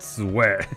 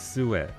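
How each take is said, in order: First: The word has one syllable, like sweat. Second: The word has two syllables, like soo-it. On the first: The speaker calls it wrong. "not sweat" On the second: The speaker calls it right. "Suet, not sweat"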